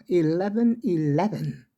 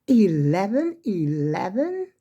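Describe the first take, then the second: First: Said in the usual way. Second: Slow, drawn-out rising Eleven eleven?; half-playful surprise at the clock; amused wondering question. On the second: Real, not acted. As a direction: let Eleven eleven? rise slowly like spotting a lucky sign. Noticing the time is 11:11.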